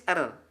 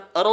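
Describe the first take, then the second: First: "er" with a light r and clear e; thin ra. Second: "er" with a dark, heavy r; thick ra. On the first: Teacher contrasting thin with thick, light "er". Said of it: "kalau tipis er". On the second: Teacher contrasting thick with thin, dark "er". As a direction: raise the tongue back for "er". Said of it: "kalau ditebalkan er". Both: Shown as a demonstration.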